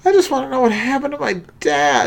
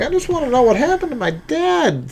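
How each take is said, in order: First: Higher, fast put-on Gabe voice; Gabe impression. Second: Gabe impression. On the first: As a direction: redo the Gabe voice, higher and quicker. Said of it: "that's a little better". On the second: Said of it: "I've been working on my Gabe".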